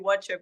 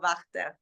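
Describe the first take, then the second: First: The name is said like English 'watcher'. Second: The name is said with its Austrian pronunciation. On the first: Other people often say it this way. The speaker calls it wrong. "sometimes they call me Watcher" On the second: This is the name's real pronunciation. The speaker calls it right. "but it's [name]"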